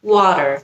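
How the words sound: It is said in an American accent. "এভাবে বললে এটা আমেরিকান অ্যাকসেন্ট হয়ে যায়"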